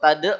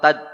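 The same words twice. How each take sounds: First: The final consonant is released with an echoing bounce. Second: The final consonant is held and cut off. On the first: The speaker calls it wrong. "Kalau tad berarti langsung ganti huruf dal. Salah" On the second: The speaker calls it right. "Jadi hilangkan qalqalahnya"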